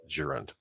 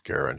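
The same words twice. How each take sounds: First: The word begins with a soft G sound. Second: The word begins with a hard G sound. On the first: "often and more typically pronounced as gerund" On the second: "I prefer the German pronunciation of the letter G"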